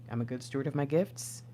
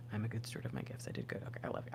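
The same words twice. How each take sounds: First: Said in the usual way. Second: Softer, hushed repeat of the affirmation. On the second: Real, not acted. Reader affirming herself to viewers, hushed. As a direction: say it quietly to yourself.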